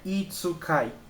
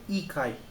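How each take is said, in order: First: A full tsu syllable is said before the k. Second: The k sound is held, with no tsu syllable. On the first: The speaker calls it wrong. "Não é itsukai" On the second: The speaker calls it right. "Não, é ikai"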